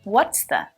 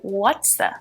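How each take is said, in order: First: The words are contracted and linked together. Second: The words are contracted and linked together.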